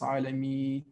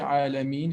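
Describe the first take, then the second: First: The word ends on a vowel, without n. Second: The word ends with a clear n sound. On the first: The speaker calls it wrong. "If we don't say Alameen, it's Alami" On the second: The speaker calls it right. "say Alameen"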